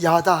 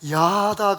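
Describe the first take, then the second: First: The word is said short and clipped. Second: The word is said drawn out and long. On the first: The speaker calls it right. "짧게 야다 하셔야지" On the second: The speaker calls it wrong. "야다 그러면 야한 게 됩니다"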